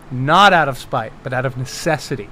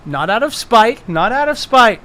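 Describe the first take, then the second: First: Lower, settling from emphatic to calm; measured justification. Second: Higher, protesting repeat; mock insistence. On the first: Pretend. Game master justifying spell as necessity, measured justification. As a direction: restate it soberly, easing off. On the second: Game master justifying his spell, mock insistence. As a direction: protest your innocence too eagerly.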